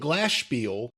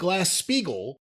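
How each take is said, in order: First: The surname ends in a short 'spiel' sound. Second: The surname ends in a longer 'spiegel' sound. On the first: The speaker calls it wrong. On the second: The speaker calls it right.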